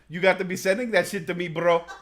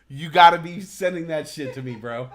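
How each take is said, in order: First: It is said in an imitated Persian accent. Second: It is said in the speaker's plain accent.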